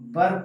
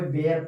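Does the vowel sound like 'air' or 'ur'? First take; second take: ur; air. First: The vowel sounds like 'ur'. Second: The vowel sounds like 'air'. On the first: The speaker calls it right. "बर पढ़ते हैं दोस्तों" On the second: The speaker calls it wrong. "बेयर नहीं पढ़ते हैं दोस्तों"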